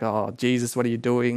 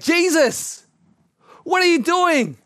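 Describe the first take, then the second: First: It is grumbled quietly under the breath. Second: It is exclaimed with shock and horror.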